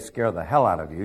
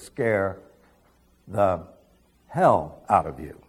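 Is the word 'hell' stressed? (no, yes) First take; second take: no; yes. First: The word hell carries no special stress. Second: The word hell carries the main stress. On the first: The speaker calls it wrong. "He didn't say scare the hell out of you" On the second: The speaker calls it right. "he put the emphasis where it belongs"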